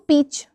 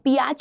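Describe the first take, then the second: First: The vowel is a single long ee sound. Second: The vowel is ee followed by an ah sound. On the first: The speaker calls it right. "या फिर आप बोल सकते हो पीच" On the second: The speaker calls it wrong. "पियाच नहीं पढ़ते हो"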